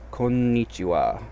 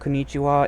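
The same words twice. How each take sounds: First: A short pause breaks the word after 'ko'. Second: The word flows through without any pause. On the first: The speaker calls it right. "So there's a bit of a pause there" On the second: The speaker calls it wrong. "it's technically not konnichiwa"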